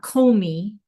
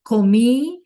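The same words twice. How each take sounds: First: The stress falls on the first syllable. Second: The stress falls on the last syllable. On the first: The speaker calls it wrong. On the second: The speaker calls it right.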